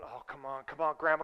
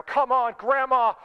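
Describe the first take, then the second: First: Low, soft pleading under the breath; muttered impatience. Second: Louder, higher impatient mock yell; retold yell. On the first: Retold or imitated. Muttered impatience before the yell. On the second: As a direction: re-enact yelling at a slow driver. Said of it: "I remember just yelling inside of my car".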